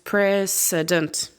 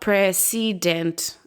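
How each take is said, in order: First: The second vowel is a reduced schwa. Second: The second vowel is a full vowel. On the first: The speaker calls it right. "it's precedent" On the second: The speaker calls it wrong. "not precedent"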